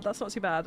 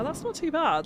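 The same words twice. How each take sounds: First: Said in the usual way. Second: High, bright pleased surprise. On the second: Real, not acted. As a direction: sound delighted it worked. Pleased with result.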